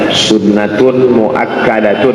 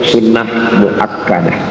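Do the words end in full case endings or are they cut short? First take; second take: full endings; cut short. First: Each word ends with a full -tun ending. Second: Each word ends cut short in -ah. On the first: "Kalau bahasa Arabnya" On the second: "Kalau dimatikan sukun"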